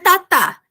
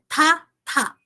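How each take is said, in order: First: The t comes out with very little air. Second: The t comes out with a strong puff of air. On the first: The speaker calls it wrong. "Não é tá, tá" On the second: The speaker calls it right. "é tá, tá, ok? Observem que a gente tem que aspirar"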